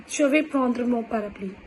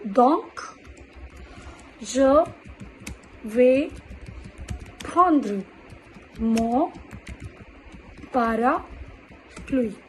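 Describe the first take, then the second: First: Said in the usual way. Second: Word by word, drawn out at the end; slow dictation. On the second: Shown as a demonstration. Teacher dictating an example sentence word by word. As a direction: dictate slowly, stretching parapluie. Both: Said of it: "what they will do?".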